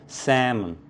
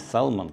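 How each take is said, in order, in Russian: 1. Оно произнесено с произношением носителя английского языка. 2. Оно произнесено с русско-английским произношением. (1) "Надо говорить" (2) "как мы говорим на рунглиша"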